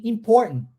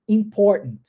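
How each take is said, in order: First: "Important" with both T's dropped, just "impor'n"; both T's swallowed. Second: "Important" with the middle T swallowed, sounding like "impor". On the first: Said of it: "engulo o segundo também". ("Important" engolindo os dois T) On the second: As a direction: gulp the T after "impor" in "Important". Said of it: "Eu engulo esse T". ("Important" engolindo o T, soando "impor") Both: Shown as a demonstration.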